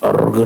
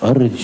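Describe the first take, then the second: First: The word ends with a hard g sound. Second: The word ends with a j sound. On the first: The speaker calls it wrong. "अर्ग नहीं" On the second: The speaker calls it right.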